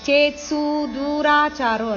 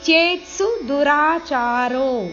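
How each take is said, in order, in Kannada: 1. 'su' ಮತ್ತು 'du' ದಲ್ಲಿನ ಸ್ವರಗಳು ದೀರ್ಘ. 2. 'su' ಮತ್ತು 'du' ದಲ್ಲಿನ ಸ್ವರಗಳು ಹ್ರಸ್ವ. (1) "ಅಲ್ಲ" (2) "ಸು ಮತ್ತು ದು ಇಲ್ಲಿ ದೀರ್ಘ ಇಲ್ಲ, ಇದು ಹ್ರಸ್ವ"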